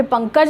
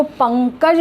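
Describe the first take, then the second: First: Said in the usual way. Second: पंकज with the ng nasal held before क; demonstrated nasal. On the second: Shown as a demonstration. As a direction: dwell on the ङ sound inside पंकज. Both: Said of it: "इसको पंकज बोलना है".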